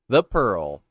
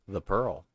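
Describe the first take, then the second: First: Title said loud and full; loud title take. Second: Said in the usual way. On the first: Shown as a demonstration. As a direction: announce the title boldly.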